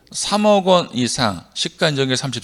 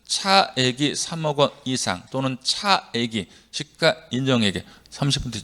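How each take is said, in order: First: "삼억 원 이상 시가 인정액 삼십" run together without breaks; wrong run-on reading. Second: Measured phrase-by-phrase reading. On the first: Teacher showing students how not to recite the clause, run-on reading. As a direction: read "삼억 원 이상 시가 인정액 삼십" straight through at ordinary pace. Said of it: "제가 언제 그렇게 했어요". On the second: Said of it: "저는 이렇게 읽었지". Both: Shown as a demonstration.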